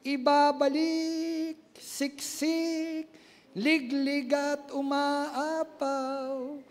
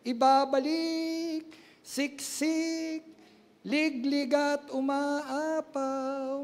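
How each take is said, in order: First: Each word stretched slow; drawn-out proclamation. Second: Slow, stretched words again in the same way; drawn-out proclamation repeated. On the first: Preacher proclaiming God's promise, slow and drawn out. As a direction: savour every word. Chanted scripture. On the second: Preacher repeating God's promise, slow and drawn out. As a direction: echo the promise. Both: Real, not acted.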